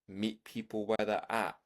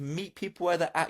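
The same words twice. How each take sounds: First: It is said slowly and calmly. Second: It is said quickly and excitedly.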